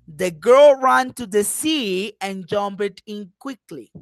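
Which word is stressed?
sea. The word sea carries the strongest stress. "I am going to emphasize see"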